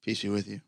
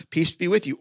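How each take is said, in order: First: Soft and low, unhurried; quiet calm greeting. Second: Said in the usual way. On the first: Acted. Jesus greeting the scared disciples, soft and low. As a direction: say it gently, like nothing happened. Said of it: "he's just". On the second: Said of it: "people would just say this".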